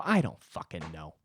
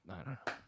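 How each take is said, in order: First: Low, gruff brush-off; imagined rude reply. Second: Much softer, barely voiced mumble; mumbled brush-off. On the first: Pretend. Brushing off a pestering comic with a low rude snap. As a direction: snap it at the annoying guy, the version never said. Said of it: "I didn't say that". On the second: Muttering to the comic asking about his hair, much softer. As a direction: mutter it and look away. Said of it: "I just go".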